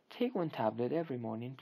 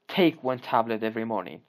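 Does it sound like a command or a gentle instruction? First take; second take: instruction; command. First: It is said calmly, as a gentle instruction. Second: It is said sharply, as a firm command. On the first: The listener is being advised what to do. The speaker calls it right. "But he is giving you instructions. He says" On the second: The listener is being ordered to obey. The speaker calls it wrong. "He does not say ... that would be order"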